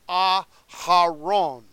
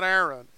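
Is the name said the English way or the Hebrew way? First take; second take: Hebrew; English. First: The name is said in its Hebrew form. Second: The name is said in its English form. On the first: The speaker calls it right. "It is Aharon. That is the Hebrew" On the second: The speaker calls it wrong. "it is not Aaron"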